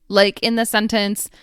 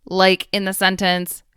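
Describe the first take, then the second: Both takes have the same delivery.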